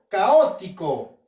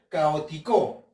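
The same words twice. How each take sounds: First: The stress is on the second syllable, o. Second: The stress is on the last syllable, co. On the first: The speaker calls it right. "Con la o" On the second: The speaker calls it wrong. "voy a creer que la sílaba tónica lleva en la co"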